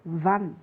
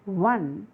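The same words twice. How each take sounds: First: One said "wun", starting on w; one pronounced "wun", not from the letter o; one with w sound. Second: One said wrongly, led by its letter o; one misread from spelling. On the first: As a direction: begin one with a consonant w glide. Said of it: "It should be pronounced as one". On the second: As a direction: show one as if the o were its first sound. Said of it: "it should not be pronounced as". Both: Shown as a demonstration.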